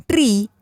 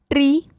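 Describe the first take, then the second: First: ट्री with ee falling in pitch; ट्री said as long "tree"; long vowel. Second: ट्री with a short i, high and rising; ट्री said as quick "tri"; short vowel. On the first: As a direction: let the ee in ट्री fall. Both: Shown as a demonstration. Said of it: "बारह खड़ी के format में".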